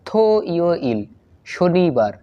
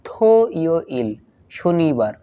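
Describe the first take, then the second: No difference in how they are said.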